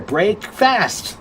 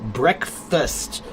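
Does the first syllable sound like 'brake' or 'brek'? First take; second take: brake; brek. First: It is said as two words, 'brake' and 'fast'. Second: The first part is a short 'brek' sound. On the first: This shows the original two words inside it. "the words are right there" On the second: This is the usual modern pronunciation. "It's weird that we pronounce it breakfast now"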